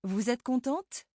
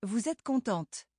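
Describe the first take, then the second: First: Question rise. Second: Contente falling as a plain statement. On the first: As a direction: voice lifting at the end of contente. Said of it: "how Josiane's voice lifted". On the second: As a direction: state it, voice dropping at the end. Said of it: "If she were just stating a fact". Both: Shown as a demonstration.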